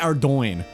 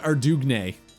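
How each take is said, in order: First: The name has no 'dug' sound in it. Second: The name has a 'dug' sound in it. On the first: This is how the speaker says it now. The speaker calls it right. "I say Ardoin" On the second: This is how the speaker said it as a child. The speaker calls it wrong. "When I was a kid, I called it Ardugne"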